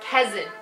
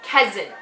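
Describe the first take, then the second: First: The T is soft and relaxed. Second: The same.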